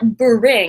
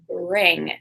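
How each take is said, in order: First: An extra vowel is added between B and R. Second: B and R are joined with no extra vowel. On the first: The speaker calls it wrong. "some people want to add sounds like bring. It's not bring" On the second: The speaker calls it right. "it's bring"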